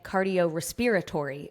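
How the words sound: Respiratory is said in a possibly Canadian way. "he was saying cardio respiratory"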